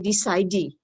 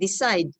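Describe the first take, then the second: First: An extra vowel sound follows the final D. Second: The word ends cleanly on the D sound. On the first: The speaker calls it wrong. "we don't pronounce the E, so we don't say decide" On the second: The speaker calls it right. "but decide"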